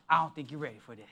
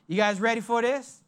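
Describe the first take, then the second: First: Much lower and much softer, a playful hush; soft teasing. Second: Said in the usual way. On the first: Real, not acted. Pastor teases the congregation in a low hush. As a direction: drop your voice low and tease them.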